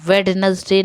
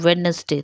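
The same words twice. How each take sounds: First: The d in the middle is pronounced. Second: The d in the middle is silent. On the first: The speaker calls it wrong. "वेडनेसडे नहीं बोला जाता है" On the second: The speaker calls it right. "तो डी silent"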